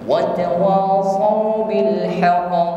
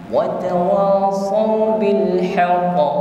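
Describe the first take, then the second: The two takes are said the same way.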